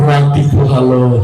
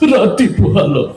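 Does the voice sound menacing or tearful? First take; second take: menacing; tearful. First: It is said in a menacing, frightening way. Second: It is said in a tearful, crying way. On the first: "তোরটা তোর বেশি ভয়ঙ্কর শোনা গেল" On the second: "ও তো কানতে কানতে কয়"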